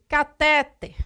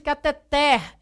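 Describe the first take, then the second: First: The stress falls before the last syllable. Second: The stress falls on the last syllable. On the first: The speaker calls it wrong. "Não existe catéter" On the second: The speaker calls it right. "é o moxítono, não tem acento"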